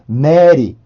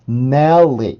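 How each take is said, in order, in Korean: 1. 가벼운 L 하나가 바로 뒤의 모음과 이어집니다. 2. 두꺼운 L은 모음 앞에서 두 번 나는 것처럼 들려요. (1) "이게 아니라" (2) "마치 L이 하나 더 있는 것처럼 발음이 돼요"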